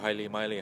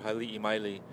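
First: The name is said quickly with sounds run together. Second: The name is said in full, syllable by syllable.

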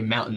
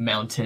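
First: The middle t sound is dropped. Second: The middle t sound is clearly pronounced. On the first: This is how locals in Utah say it. "I finally say mountain" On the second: This is how it was said before adapting. "instead of mountain"

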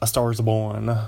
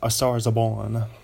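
First: It is said in the speaker's normal accent. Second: It is said in a put-on Italian accent.

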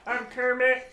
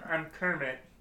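First: A higher, less deep Kermit voice. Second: A deeper Kermit voice.

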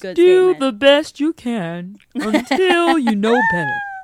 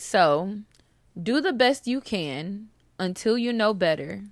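First: It is said in a put-on imitation voice. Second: It is said in the speaker's ordinary voice.

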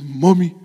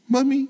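First: The word is said in a deeper, rougher voice. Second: The word is said in a thin, high voice. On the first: Jacob imitating his brother Esau. The speaker calls it right. "sound more like Esau" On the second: Jacob speaking in his own voice. The speaker calls it wrong. "saying with his thin voice"

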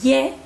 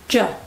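First: The consonant is a soft Spanish-style y sound. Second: The consonant is an English j sound. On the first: The speaker calls it wrong. "no es ye" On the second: The speaker calls it right. "es ye"

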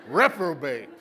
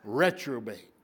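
First: The word has a p sound after re. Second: The word has a t sound after re. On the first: The speaker calls it right. "Not a retrobate. Reprobate" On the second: The speaker calls it wrong. "That doesn't sound right"

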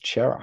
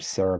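First: The name begins with a 'ch' sound. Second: The name begins with an 's' sound. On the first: This is how most people say the name. "But everyone says Chera" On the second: This is how one person reads the spelling. "I've never heard anyone else call him Sarah before"

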